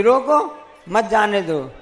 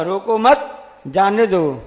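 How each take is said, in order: First: "रोको" alone, pause, then "मत जाने दो" together; pause after रोको. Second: "रोको मत" kept together, pause, then "जाने दो"; pause after मत. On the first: Teacher showing the comma's importance, pause moved before मत. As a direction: break before मत, so it means don't let them go. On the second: Teacher showing the comma's importance, pause placed after मत. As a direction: break after मत, so it means don't stop them. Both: Shown as a demonstration. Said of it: "अल्प विराम का क्या महत्व".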